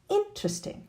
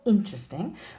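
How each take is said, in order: First: The first syllable has strongly exaggerated stress. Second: The first syllable has normal stress. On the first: "it would probably be even more exaggerated in an exclamation" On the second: "if the stress syllable is the first one"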